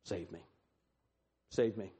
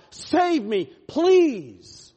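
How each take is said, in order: First: Very low, hushed prayer; soft, spaced-out appeal, falling away; quiet plea. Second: High, loud cry for rescue; desperate plea. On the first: Sinner praying to Christ right now, quiet plea. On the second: What we say to God, desperate loud plea. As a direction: cry out to God at full voice, begging. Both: Acted.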